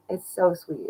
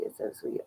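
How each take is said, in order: First: Said in the usual way. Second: Soft unvoiced whisper; whispered aside to the chat. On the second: Real, not acted. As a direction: breathe it without voice. Repeats sweet line, then whispers.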